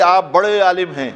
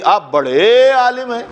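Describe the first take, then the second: First: Said in the usual way. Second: بڑے dragged out slowly, pitched up; sarcastic compliment with a long, drawn بڑے; drawn-out mocking stretch. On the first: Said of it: "تو یہ تعریف ہو گئی". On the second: Shown as a demonstration. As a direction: stretch بڑے long and high, turning praise into a jibe. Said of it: "تھوڑا کھینچ دیا تو بڑے عالم سے چھوٹے ہو گئے".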